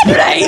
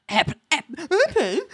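First: Said in the usual way. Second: Stuttering start, then a much higher, disbelieving airplane; incredulous stammer. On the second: Retold or imitated. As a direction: sputter in mock disbelief. Larry can't believe the answer.

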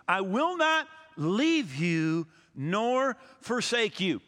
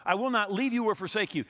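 First: Each word of "I will not leave you nor forsake you" drawn out slowly and weighted; slow solemn reading. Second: Said in the usual way. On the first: Acted. Pastor to congregation, reading the promise slow and solemn.

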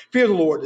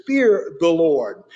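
First: Said in the usual way. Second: Fear the Lord drawn out slowly, FEAR weighted; slow emphatic. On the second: Shown as a demonstration. Preacher reads the command to the congregation, slow and weighty. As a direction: lean on Fear, stretch it. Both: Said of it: "The next thing he says here is".

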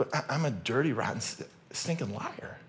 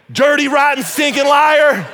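First: Quiet, halting self-accusation; mock sheepish confession. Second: High, full-volume hammed-up denunciation; mock accusing shout. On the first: Preacher turning the accusation on himself, soft mock confession. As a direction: drop the volume right down and stumble over it. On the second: Preacher mock-denouncing Pastor Craig, hammed-up accusing shout. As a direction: shout it out, dragging the final words in mock outrage.

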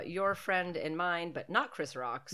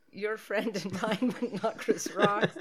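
First: Slow, deliberate running gag; slow deadpan quip. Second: Slow, higher, laughing through the catchphrase; barely holding back laughter, slowly; laughing running gag. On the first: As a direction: drawl it out as a dry joke. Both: Shown as a demonstration. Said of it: "That's what I'm gonna say".

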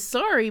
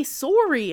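First: Said in the usual way. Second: "sorry" with a rounded Canadian "sore-ee"; Canadian-accented "sorry". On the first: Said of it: "but he didn't say sorry". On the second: Shown as a demonstration. Showing what the dub actor missed, Canadian "sorry". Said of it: "didn't sound Canadian".

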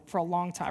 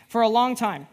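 First: Said in the usual way. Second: For a long time, with long punched louder and falling; weary stress on long. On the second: Real, not acted. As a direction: lean hard on long, then let it drop. Repeats phrase with emphasis.

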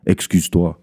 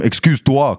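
First: Lower, cold demand of Excuse-toi; a hint of a bossy woman; imitating the woman. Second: Excuse-toi tossed back a little higher, incredulous; mock-incredulous repeat; mocking echo. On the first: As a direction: mimic her haughty order, pitched down. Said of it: "elle me dit comme si". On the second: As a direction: repeat her order back in disbelief. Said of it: "j'ai comme".

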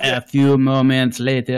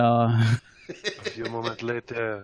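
First: Nature documentary. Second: Deep, soft, slow documentary narration; lower, hushed narrator voice; nature documentary. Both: Acted. Documentary narrator cut line.

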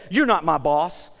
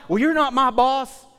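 First: Slow, mild mock defiance of a kid; lightly voiced kid talking back; defiant kid. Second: Put-on a touch higher, cheeky kid; mock sassy kid retort; kid sassing back. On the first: Kid mouthing off to a parent, mildly defiant. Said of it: "a kid will look at you and say". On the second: Kid sassing the parent, slightly higher and louder.

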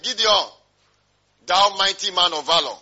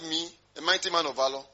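First: Loud, ringing hail as an angel; acted loud angelic greeting; angel's proclamation. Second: Mildly incredulous question, rising at the end; acted disbelief, far less forceful; doubting echo. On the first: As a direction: proclaim it forcefully, like a heavenly salutation. Angel hailing Gideon in retold scene. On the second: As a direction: question the title as if it can't be you. Gideon doubts the angel's greeting.

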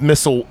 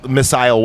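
First: "missile" with a short, reduced second syllable, MISS-ul. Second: "missile" with a long I, MISS-ile. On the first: Podcaster naming the primitive weapon, "missile" said MISS-ul. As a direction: say "missile" to rhyme with thistle. Corrects own pronunciation of missile. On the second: Podcaster correcting himself on the weapon, "missile" said MISS-ile. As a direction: say "missile" so it ends like aisle. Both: Real, not acted.

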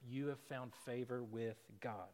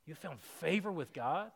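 First: Said in the usual way. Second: Favor rising in disbelief; incredulous question. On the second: Shown as a demonstration. Preacher questioning the angel's words to the congregation, incredulous. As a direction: turn the blessing into a doubting question.

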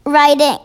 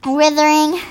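First: "writhing" with a long i, like "eye"; corrected writhing. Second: "writhing" with a short i and an extra er syllable; misread writhing. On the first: Reader repeats the word after a prompt, "writhing" with long i. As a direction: say "writhing" close to "writing". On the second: Reader stumbles on a hard word, misreading "writhing" as "writhering". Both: Real, not acted.

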